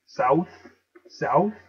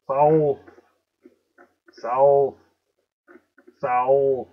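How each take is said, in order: First: "South" as SOWTH, no l; questioning "South" with rising end and no l; without the L. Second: "South" drawn out as SOW-L-th; loud, emphatic "South" with a long dark l. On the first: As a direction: lift "South" at the end, vowel straight into th. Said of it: "what is south?". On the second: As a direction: lean on an l inside "South". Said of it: "You hear the L? Wolf". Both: Shown as a demonstration.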